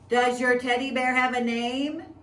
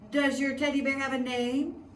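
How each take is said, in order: First: The question is said at a louder volume. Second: The question is said at normal, softer volume.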